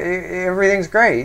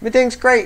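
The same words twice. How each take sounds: First: It sounds forced and unconvincing. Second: It sounds sincere and convincing. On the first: Things are not really fine. "you can kind of tell it's not. ... you're not very convincing. Right? Like that" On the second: Things really are fine. "Except that's not how they're saying it"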